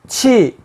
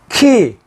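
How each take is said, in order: First: The syllable starts with a ch sound. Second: The syllable starts with a hard k sound. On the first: "치도 될 수 있고" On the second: "지역에 따라서 키, 키역 발음이 납니다"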